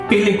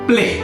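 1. যুক্তব্যঞ্জনটি শিথিলভাবে উচ্চারিত হয়। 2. যুক্তব্যঞ্জনটি একসাথে শক্তভাবে উচ্চারিত হয়। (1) "প্লে করে না বলে" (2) "আপনি বলেন প্লে"

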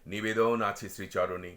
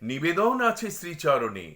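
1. এটা স্বাভাবিক, নিচু পর্দায় বলা হয়েছে। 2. এটা চড়া, উঁচু পর্দায় বলা হয়েছে। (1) "আমার স্বাভাবিক কণ্ঠস্বর হচ্ছে" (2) "লিপটাঙের 3য় স্কেলে আমরা ধরছি গান্ধারীর সংলাপটা।"

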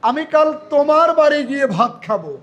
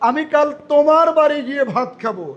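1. জোর দেওয়া হয়েছে 'তোমার' শব্দের উপরে। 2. জোর দেওয়া হয়েছে 'তোমার' শব্দের উপরে।

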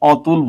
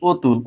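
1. প্রথম স্বরধ্বনিটি খোলা, 'aw'-র মতো। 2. প্রথম স্বরধ্বনিটি বদ্ধ, 'o'-র মতো। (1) "অতুল বলি না" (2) "ও এর মতো উচ্চারণ করি"

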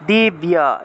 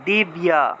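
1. ব্যঞ্জনের পরে স্পষ্ট 'ya' উচ্চারণ আসে। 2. ব্যঞ্জনের পরে স্পষ্ট 'ya' উচ্চারণ আসে।

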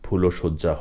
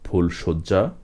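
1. 'phul'-এর পরে একটি 'o' স্বরধ্বনি শোনা যায়। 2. 'phul'-এর পরে কোনো স্বরধ্বনি শোনা যায় না। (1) "ফুলশয্যা হবে না" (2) "হবে"

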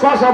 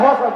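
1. শব্দটি 'sh' ধ্বনি দিয়ে শুরু হয়। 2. শব্দটি 'h' ধ্বনি দিয়ে শুরু হয়। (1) "আমরা শশা বলি না" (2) "হসা বলি"

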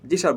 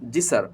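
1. 'sir'-এর s একটি নরম sh ধ্বনি। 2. 'sir'-এর s বেশি বাতাস দিয়ে উচ্চারিত হয়। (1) "এই কিন্তু সার হয়ে গেল।" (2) "এখানে বাতাসটা একটু বেশি বের হবে।"

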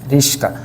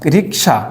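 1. s ধ্বনিটি k ধ্বনির আগে আসে। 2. k ধ্বনিটি s ধ্বনির আগে আসে। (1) "ওরা রিক্সা বলতে পারে না, কী বলে, রিস্কা" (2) "রিক্সা থেকে রিস্কা"

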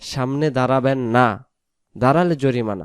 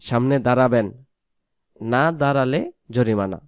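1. বিরামটি 'na' শব্দের ঠিক পরে আসে। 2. বিরামটি 'na' শব্দের ঠিক আগে আসে। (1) "নায়ের জায়গায় দম ছাড়ে" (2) "আপনি সামনে দাঁড়াবেন"

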